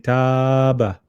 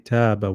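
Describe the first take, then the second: First: The vowel is lengthened for a long time. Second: The vowel is lengthened a medium amount. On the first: The speaker calls it wrong. "We won't pull it too much. We won't say" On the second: The speaker calls it right. "we'll pull it. So we we'll say"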